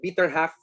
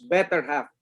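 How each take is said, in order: First: The first vowel sounds like the one in 'bit'. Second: The first vowel sounds like the one in 'bet'. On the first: The speaker calls it wrong. "We pronounce letter E with an I" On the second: The speaker calls it right. "that is pronounced better half"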